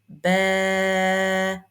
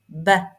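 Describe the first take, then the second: First: The vowel is held long. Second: The vowel is cut short. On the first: The speaker calls it right. "You see, it's long" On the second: The speaker calls it wrong. "It's not ba, because ba is only fatha"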